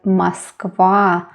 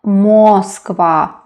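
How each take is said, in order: First: The stress is on the last syllable. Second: The stress is on the first syllable. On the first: The speaker calls it right. "the last syllable is stressed" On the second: The speaker calls it wrong. "not Moskva"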